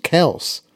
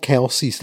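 First: Kels as one slow syllable, no EE; correct pronunciation. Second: Kelce's in two syllables, KEL-seez; common pronunciation. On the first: Co-host explaining the brothers' real surname, one-syllable pronunciation. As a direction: say Kels to rhyme with bells. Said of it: "it's pronounced Kels". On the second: Co-host giving what people have called them since college, two-syllable pronunciation. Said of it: "they've been called Kelce's". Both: Shown as a demonstration.

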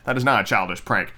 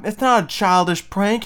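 First: Said in the usual way. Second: Higher, incredulous protest; outraged protest. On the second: Retold or imitated. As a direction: argue back in disbelief. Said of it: "and I'm like".

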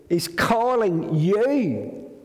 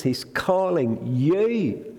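First: Tender call. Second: Said in the usual way. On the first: Shown as a demonstration. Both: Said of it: "Isn't that a lovely phrase?".

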